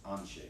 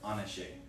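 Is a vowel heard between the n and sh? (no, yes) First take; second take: no; yes. First: No vowel is sounded between n and sh. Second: A vowel is sounded between n and sh. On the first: The speaker calls it right. "we don't say it, we're just passing it over" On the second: The speaker calls it wrong. "if you really want to say Anashe ... it's just kind of wrong"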